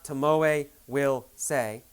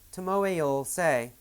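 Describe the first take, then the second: First: Will is said as a full separate word. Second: Will is shortened and joined to the name. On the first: "not Tomoe will say" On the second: "Tomoe'll say, did you hear that?"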